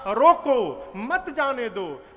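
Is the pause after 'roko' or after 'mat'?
after roko. The pause comes right after 'roko'.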